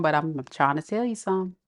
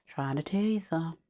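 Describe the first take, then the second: First: Said in the usual way. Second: Much softer, you falling; murmured repeat; quiet echo. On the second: Real, not acted.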